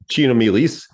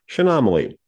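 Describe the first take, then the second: First: The word ends with an 'eez' sound. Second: The word ends with an 'ee' sound. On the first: The speaker calls it wrong. "not Chenomeles, like you might think" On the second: The speaker calls it right. "Chaenomeles is pronounced Chenomaly"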